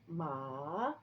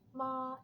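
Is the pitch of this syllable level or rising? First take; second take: rising; level. First: The pitch rises from lower to higher. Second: The pitch stays high and level. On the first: "second tone, ma, uh, ma goes up" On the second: "this first flat tone"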